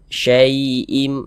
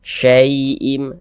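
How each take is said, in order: The two takes are said the same way.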